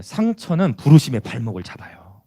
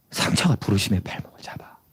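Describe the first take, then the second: First: Said in the usual way. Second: Low, hushed repeat for weight; soft, grave whispering. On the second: Real, not acted. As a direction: drop to a whisper to let it sink in. Repeats key line in a whisper.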